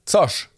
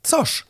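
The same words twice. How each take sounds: First: Zosch as a sudden, high, falling exclamation; blurted out. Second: Zosch pitched very high in disbelief; baffled question. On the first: Mother blurting the second child's name, sudden Zosch. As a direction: burst out with Zosch, short and high. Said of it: "Frau Hackebart platzte heraus". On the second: Registrar baffled by the name, very high questioning Zosch. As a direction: squeak Zosch as a puzzled question. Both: A narrator's reading.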